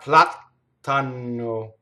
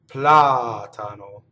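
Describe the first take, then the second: First: The t and n are long and doubled. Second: The consonants are short and single. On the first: The speaker calls it wrong. "That would make it wrong. Double T, double N" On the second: The speaker calls it right. "this word also has all single consonants"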